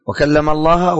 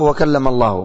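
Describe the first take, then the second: First: "الله" ending in a short "a", as Allaha; final fatha. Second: "الله" ending in a short "u", as Allahu; final damma. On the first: Teacher contrasting two readings for students, "الله" ending in -a. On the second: Teacher contrasting two readings for students, "الله" ending in -u. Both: Shown as a demonstration. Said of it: "ما يدري إيش الصواب".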